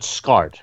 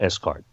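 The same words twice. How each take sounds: First: The word is said as one syllable. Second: The S is said as a separate letter. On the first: The speaker calls it right. "you call it SCART" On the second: The speaker calls it wrong. "as opposed to S-Cart"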